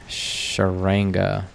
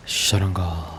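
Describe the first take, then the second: First: "Sharanga" said the American way, flat r and nasal a; Americanized "Sharanga", drawn out slowly; "Sharanga" with plain American vowels; American pronunciation. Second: "Sharanga" in a light Indian accent, open ah vowels, tapped r; mock Indian accent on "Sharanga". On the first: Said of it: "Man, I said that very American". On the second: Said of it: "To say it with an Indian accent". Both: Shown as a demonstration.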